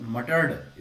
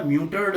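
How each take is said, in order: First: मटर्ड with a short "muh" and no "y"; correct pronunciation. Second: म्यूटर्ड with a "myoo" sound at the start; wrong pronunciation. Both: Shown as a demonstration. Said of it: "म्यूटर्ड नहीं है".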